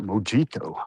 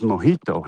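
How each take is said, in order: First: The word is pronounced an anglicized way. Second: The word is pronounced the Spanish way. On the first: The speaker calls it wrong. "it's not Mojito" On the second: The speaker calls it right. "It's Mojito"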